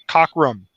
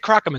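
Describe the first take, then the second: First: The name begins with a 'cock' sound. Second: The name begins with a 'crock' sound. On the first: The speaker calls it right. "It's it's Cockrum" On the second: The speaker calls it wrong. "I always say Crockham"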